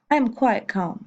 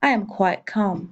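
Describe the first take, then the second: First: "I am quite calm" repeated at normal speed; teacher's second, quicker take of "I am quite calm"; English repeat. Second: "I am quite calm" said slowly, each word set apart; teacher's slow first take of "I am quite calm"; slow English model. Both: Shown as a demonstration. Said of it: "ça me donne donc".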